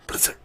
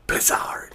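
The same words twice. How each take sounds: First: Said in the usual way. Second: Whispered name. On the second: Pretend. Gamer whispering the brand name to viewers. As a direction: whisper Blizzard with no voice. Teasing a console reveal.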